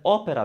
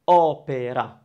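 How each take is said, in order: First: Said in the usual way. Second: "Opera" louder, as O, pe, ra; syllable by syllable. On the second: Shown as a demonstration. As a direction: sound out every vowel of "Opera" in three beats. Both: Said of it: "Three syllables".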